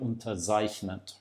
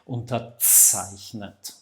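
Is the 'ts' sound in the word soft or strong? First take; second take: soft; strong. First: The ts sound is soft and weak. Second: The ts sound is strong and forceful. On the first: The speaker calls it wrong. "very common mistake um, that the ts is too soft. So often I hear something like unterzeichnet" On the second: The speaker calls it right. "No, it's a ts, like when you have the, the, the a valve and you push it and the, the air comes out"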